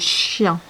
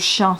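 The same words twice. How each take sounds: First: It starts with a longer, softer sh sound. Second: It starts with a plain, short sh sound. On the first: "c'est un peu plus que chien, c'est chien" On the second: "c'est un peu plus que chien"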